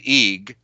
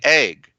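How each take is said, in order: First: The vowel is a long 'ee' sound. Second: The vowel is a short 'eh' sound. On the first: The speaker calls it wrong. "You don't say eeg" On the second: The speaker calls it right. "you say egg"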